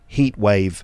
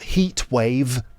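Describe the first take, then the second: First: The t at the end of heat is dropped. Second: The t at the end of heat is pronounced. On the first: The speaker calls it right. "generally that's not pronounced, so you end up with heat wave" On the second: The speaker calls it wrong. "Not heat wave"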